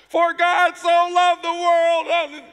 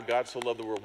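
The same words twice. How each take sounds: First: Bellowed much higher and louder, very slow; loud slow proclaiming. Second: Said in the usual way. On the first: Retold or imitated. Urged by the interpreter to preach over the babbling, booming. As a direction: shout it out over the crowd, stretching each word. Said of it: "louder, louder". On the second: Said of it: "What's the next line?".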